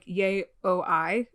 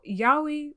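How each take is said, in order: First: The word is split into yay, o, I. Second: The word is said the familiar, usual way. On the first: The speaker calls it wrong. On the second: The speaker calls it right.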